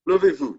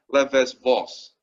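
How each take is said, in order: First: Levez-vous said the French way, silent z and s; French pronunciation. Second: Levez-vos with every letter sounded, ending in a hard s; wrong anglicised pronunciation. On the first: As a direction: say Levez-vous with an "oo" ending and no final s. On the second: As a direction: misread levez-vos English-style as "lev-ez-voss". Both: Shown as a demonstration. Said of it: "Not like that".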